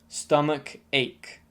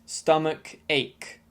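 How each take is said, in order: Both takes have the same delivery.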